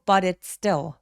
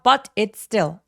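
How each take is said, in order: First: The words run together with a soft flapped t. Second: Each word is said separately, with a clear t. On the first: The speaker calls it right. "덩어리로 쭉 이어서 굴려서 소리내는" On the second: The speaker calls it wrong. "나눠서 발음하지 말고요"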